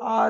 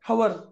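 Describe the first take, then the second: First: The word begins directly with a vowel sound. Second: The word begins with an audible h sound. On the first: The speaker calls it right. "ह silent आहे याच्यात" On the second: The speaker calls it wrong. "जे जे लोक त्याला हवर म्हणतील"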